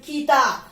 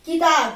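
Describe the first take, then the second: First: Said in the usual way. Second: किताब with a quick, light की; किताब, the की kept short and unstressed; short vowel demo. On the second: Shown as a demonstration. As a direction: say किताब without leaning on की. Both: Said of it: "की पर हम जोर नहीं डालते".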